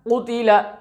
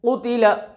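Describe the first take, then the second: Both takes have the same delivery.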